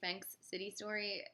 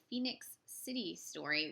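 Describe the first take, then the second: First: The first word has one syllable, fenks. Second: The first word has two syllables, fee-nix. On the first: The speaker calls it wrong. "a film I have been mispronouncing" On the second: The speaker calls it right. "there's an I there"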